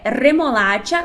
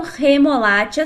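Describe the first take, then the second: First: Remolacha with a rolled R at the start; the right way, trilled R. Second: The wrong way, Portuguese R. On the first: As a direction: roll the R of remolacha. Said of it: "o certo é remolacha, vibrando o R". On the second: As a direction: say remolacha the Brazilian way, R not vibrating. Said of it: "e não remolacha sem vibrar como no português". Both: Shown as a demonstration.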